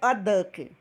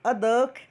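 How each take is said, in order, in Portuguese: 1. O artigo é um som 'uh' curto e fraco. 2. O artigo é um som 'uh' curto e fraco.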